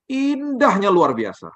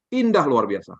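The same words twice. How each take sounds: First: High, slow and amazed; describing the view to the congregation in high slow awe; awestruck. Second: Said in the usual way. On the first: Retold or imitated. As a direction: stretch it out in wonder.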